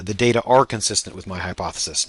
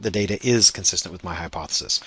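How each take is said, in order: First: "are" stressed as the key word. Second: "is" stressed as the faulty word. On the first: Lecturer modelling correct plural grammar, stress on "are". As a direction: lean on "are" in the sentence. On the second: Lecturer showing the verb to avoid, stress on "is". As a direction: lean on "is" in the sentence. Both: Shown as a demonstration. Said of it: "you want to note this".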